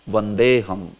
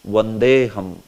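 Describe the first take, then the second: First: The words are joined and the 'a' is dropped. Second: The same.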